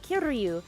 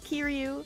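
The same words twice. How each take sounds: First: The R sound is strongly rolled. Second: The R sound is a light single flap. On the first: The speaker calls it wrong. "there's no R roll" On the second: The speaker calls it right. "why am I still rolling the R's? It's Kiryu"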